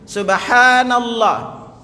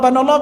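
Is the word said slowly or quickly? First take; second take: slowly; quickly. First: It is said slowly with every syllable clear. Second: It is said quickly with the start clipped off. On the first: The speaker calls it right. "bacalah dia pelan-pelan" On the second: The speaker calls it wrong. "Yang cepat-cepat"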